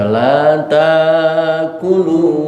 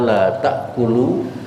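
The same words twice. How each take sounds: First: A long vowel replaces the glottal stop. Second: A glottal stop comes after the first syllable. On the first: This is how more learned readers recite it. "tidak pakai hamzah tetapi pakai alif" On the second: This is the common reading. "Bacaan kita"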